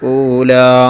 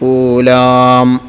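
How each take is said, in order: First: The word ends on an open long vowel. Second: The lips close, adding an m sound. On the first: The speaker calls it right. "അസ്ലിയായ മദ്ദിനേക്കാൾ കൂടാനും പാടില്ല" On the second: The speaker calls it wrong. "പെട്ടെന്ന് ചുണ്ട് പൂട്ടിയാൽ അവിടെ മീമും വരും"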